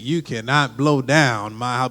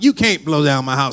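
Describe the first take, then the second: First: The word 'cannot' is said in full. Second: The word 'cannot' is contracted to 'can't'.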